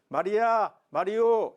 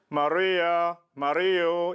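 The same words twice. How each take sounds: First: It is said without nasal resonance. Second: It is said with a nasal resonance.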